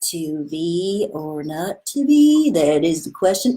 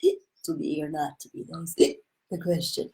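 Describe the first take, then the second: First: It sounds dim-witted and slow, like someone stupid. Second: It sounds slurred, like a drunk person.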